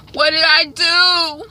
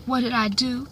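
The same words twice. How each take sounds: First: Slow, high, loud mock wail; imitated wailing. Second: Higher-pitched tearful question; imitated crying. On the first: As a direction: escalate into drawn-out acted anguish. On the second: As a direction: start the mock weeping, held in. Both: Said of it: "and she's crying".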